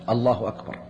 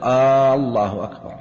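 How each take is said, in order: First: Neither word has a lengthened first vowel. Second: The first vowel of the first word is lengthened. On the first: It is a statement that God is greatest. The speaker calls it right. "أن تكون بهذا اللفظ بلفظ الله أكبر" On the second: It asks whether God is greatest. The speaker calls it wrong. "ألا يمد الهمزة في الله، فلا يقول الله أكبر"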